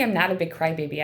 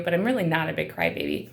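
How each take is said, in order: First: Said in the usual way. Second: "really" leaned on, falling at the end; stress on really. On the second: Real, not acted. Insisting to viewers she's no crybaby, "really" stressed.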